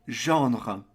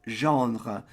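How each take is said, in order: No difference in how they are said.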